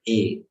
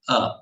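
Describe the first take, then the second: First: The vowel sounds like the English letter name 'ay'. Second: The vowel is a short open 'uh' sound. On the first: "In English, you call it as A" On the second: "in Sanskrit, you will pronounce that as A, not A"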